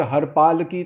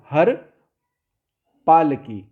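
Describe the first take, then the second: First: हर पाल की with no gap; run-together words. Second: हर, long stop, then पाल की; pause between words. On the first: Teacher warning how it gets misheard, run-together words. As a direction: join हर onto पाल like a name. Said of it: "लेकिन ऐसे बोलोगे". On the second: Teacher showing the safe reading, pause between words. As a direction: leave a clear gap after हर. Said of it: "रुक कर बोलें". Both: Shown as a demonstration.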